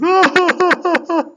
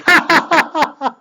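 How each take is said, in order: First: High-pitched mock bawling; imitated crying. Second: Very high, staccato fake laugh; imitated laugh. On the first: Storyteller shows the rabbi suddenly crying, mock sobbing. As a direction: fake a sudden wailing cry in bursts. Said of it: "he cries, you know". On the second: Storyteller shows the rabbi laughing at the lady, mock laughter. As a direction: act out a sudden high cackle. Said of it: "and then he laughs".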